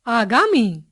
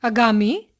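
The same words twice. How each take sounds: First: आगामी with long opening aa; correct long first vowel. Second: आगामी with a short opening a; wrong short first vowel. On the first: Teacher giving the correction, आगामी with long aa. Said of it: "उनके शुद्ध रूप". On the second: Teacher showing a common error, आगामी with short a. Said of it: "कुछ सामान्य अशुद्धियां". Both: Shown as a demonstration.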